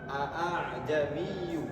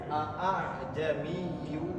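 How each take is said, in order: Both takes have the same delivery.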